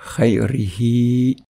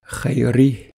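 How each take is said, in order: First: The word is said in its full connected form. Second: The word is said in its shortened pausal form. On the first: The reciter continues into the next word. "sans faire de pause" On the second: The reciter stops after this word. "comme si on faisait une pause"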